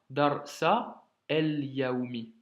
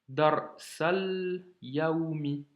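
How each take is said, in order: First: The article is said separately with its own vowel. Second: The article is linked onto the preceding word. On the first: The speaker calls it wrong. "et pas" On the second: The speaker calls it right. "liaison de nouveau"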